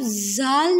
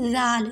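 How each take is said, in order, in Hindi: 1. पहला व्यंजन सीटी जैसा, सिसकारी वाला z है। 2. पहला व्यंजन नरम है, इसमें कोई सिसकारी नहीं। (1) "अब ज़ाल नहीं पढ़ना, सीटी की आवाज़ नहीं आएगी" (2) "हमने नरमी से पढ़ना है"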